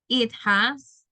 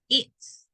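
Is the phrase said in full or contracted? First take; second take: full; contracted. First: Both words are said fully and separately. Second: The two words merge into one short syllable.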